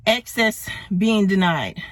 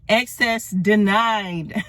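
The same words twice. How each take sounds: First: Said in the usual way. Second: Slow, deliberate repeat of the phrase; drawn out for emphasis; slow emphatic. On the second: Shown as a demonstration.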